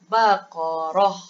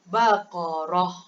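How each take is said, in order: Both takes have the same delivery.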